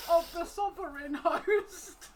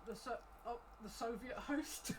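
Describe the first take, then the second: First: "sovereign" fixed through laughter, higher and louder, slow; laughing correction. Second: "Soviet host" said by mistake for "sovereign host"; slip to Soviet. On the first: Real, not acted. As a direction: correct yourself while cracking up. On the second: Acted. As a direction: say "Soviet" where "sovereign" belongs, in plain voice. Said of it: "Sovereign is what he meant".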